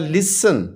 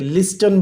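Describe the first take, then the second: First: The t sound is left silent. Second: The t sound is clearly pronounced. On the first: The speaker calls it right. "हम इसमें से टी को silent करेंगे" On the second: The speaker calls it wrong. "वो इसको pronounce करने लग गए हैं बोलते हुए"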